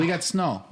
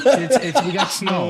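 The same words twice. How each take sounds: First: "We got snow." with a rounded Canadian O on "snow"; Canadian accent. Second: Laughing imitation. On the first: Retold or imitated. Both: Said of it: "he said the same sentence three times".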